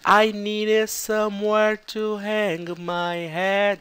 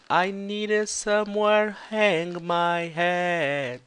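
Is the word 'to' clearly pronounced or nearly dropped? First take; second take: clear; dropped. First: The word 'to' is clearly pronounced. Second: The word 'to' is almost silent.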